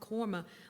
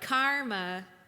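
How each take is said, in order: First: The first vowel is rounded, New Orleans style. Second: The first vowel is open and unrounded, Midwestern style.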